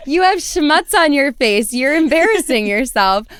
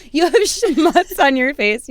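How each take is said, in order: First: Raised, louder gloating taunt; taunting comeback. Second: Slow, slightly raised mock correction; smug comeback. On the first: Retold or imitated. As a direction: rub it in with a grin. Repeats comeback to the guy. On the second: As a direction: savour the insult. Her comeback to the guy.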